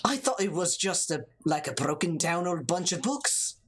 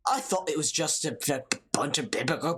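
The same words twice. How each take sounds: First: Steadier second go at Irish; mock-Irish character voice; lyrical Irish accent. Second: Put-on Irish accent tumbling into gabble; garbled, hurried Irish brogue; Irish accent attempt. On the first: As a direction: read it with a lilting Irish accent. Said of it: "You gotta get that lyricalness". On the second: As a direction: let the mock-Irish brogue trip over itself. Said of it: "that's Saint Patrick's Day".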